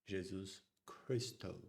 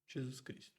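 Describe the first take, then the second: First: It is said with a strong American accent. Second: It is said with a Brazilian Portuguese accent. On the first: "with an American strong accent? You would say" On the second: "Here in Brazil we say Jesus Cristo"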